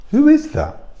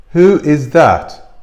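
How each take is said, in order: First: High, startled who is that; puzzled question. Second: Who is that drawn out slowly and firmly; slow pointed repeat. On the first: Vlogger wonders about the woman behind the camera, high startled. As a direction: ask it high in disbelief. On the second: Vlogger presses the question about the hidden woman, slow and pointed. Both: Real, not acted.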